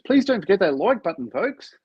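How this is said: It is said in an upbeat, cheerful tone.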